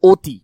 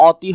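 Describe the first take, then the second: First: "অতি" with a rounded "oh" first vowel, "oh-ti"; closed o sound. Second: "অতি" with an open "aw" first vowel, "aw-ti"; open ɔ as spelt. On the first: Teacher showing how we really say it, "অতি" as "oh-ti". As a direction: say "অতি" as spoken, "oti". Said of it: "আমরা বলি অতি". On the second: Teacher showing the expected spelling sound, "অতি" as open "aw-ti". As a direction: say "অতি" by the letter, open "awti". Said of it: "স্বরীয় উচ্চারণ হলে অতি হওয়ার কথা". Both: Shown as a demonstration.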